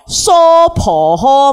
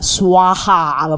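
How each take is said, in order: First: It is said as three syllables, so-po-ho. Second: It is said as two syllables, swa-ha. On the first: This is the Chinese transliterated form. The speaker calls it wrong. "咁而家中文会翻成系乜嘢，多数会见到" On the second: This is the original Sanskrit or Tibetan form. The speaker calls it right. "如果你用藏语或者梵文就係swaha 咁样啦"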